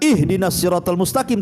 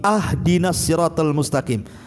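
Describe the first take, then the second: First: The first word begins with an 'i' vowel. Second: The first word begins with an 'a' vowel. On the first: Asking for guidance. The speaker calls it right. "bukan ihdinas siratal mustaqim" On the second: Asking for a gift. The speaker calls it wrong. "Jangan dibaca ahdina"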